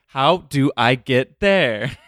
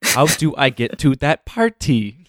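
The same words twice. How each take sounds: First: Slow drawn-out mock quote; imitating her way of asking; slow imitation. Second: Drawn-out, slow impression of a friend; slow mocking imitation. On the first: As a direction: drag out each word. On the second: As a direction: stretch it out slowly, mocking. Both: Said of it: "sometimes you'll go like".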